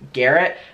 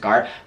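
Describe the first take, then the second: First: The name is said in an American accent. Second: The name is said in a European accent. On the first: This is how others say it should be said. "everyone says that I should be pronouncing it Garrett" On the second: This is how it is said locally. "I think it's like European, we pronounce it Garrett"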